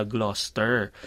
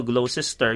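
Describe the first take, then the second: First: Gloucester squeezed to two syllables, Gloster; correct Gloucester. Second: Gloucester spelt out in three syllables, glo-ces-ter; misread Gloucester. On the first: Host giving the right Gloucester. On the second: Host showing how Gloucester looks when read. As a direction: read every letter of Gloucester. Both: Shown as a demonstration. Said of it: "yung pala".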